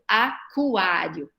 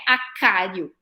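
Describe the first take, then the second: First: The k is followed by a w sound. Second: The k is followed directly by the vowel a. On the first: The speaker calls it right. "eu acabo fazendo o som do U depois" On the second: The speaker calls it wrong. "não é acário"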